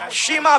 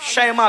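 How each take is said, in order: First: The first vowel sounds like a long 'ee'. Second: The first vowel sounds like 'ai'. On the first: The speaker calls it wrong. "लोग शीमा भी कहते हैं" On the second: The speaker calls it right. "ज्यादा सही उलमा ने फरमाया शैमा है"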